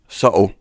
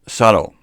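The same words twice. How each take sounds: First: It is said in a Scottish accent. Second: It is said in an American accent, flat T. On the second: "American, with a flat T"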